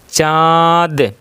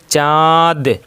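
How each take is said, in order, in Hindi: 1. 'न' सिर्फ़ स्वर का अनुनासिकीकरण है। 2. 'न' सिर्फ़ स्वर का अनुनासिकीकरण है।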